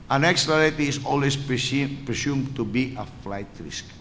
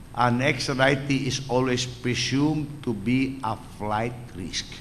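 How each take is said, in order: The two takes are said the same way.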